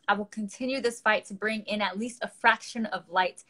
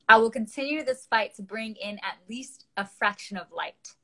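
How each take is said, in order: First: It is read at a fast pace. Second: It is read at a slow pace.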